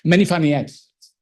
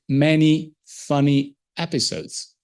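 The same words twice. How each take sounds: First: It is read quickly without breaks. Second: It is read word by word with breaks.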